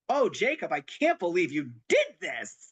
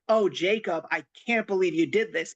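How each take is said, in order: First: It sounds delighted and amazed. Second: It sounds angry and scolding.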